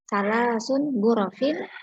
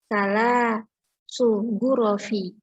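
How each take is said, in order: First: Both words end in an n sound. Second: Neither word ends in an n sound. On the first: "ada yang membaca salah sun gurofin" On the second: "ada juga yang membaca salah su gurofi"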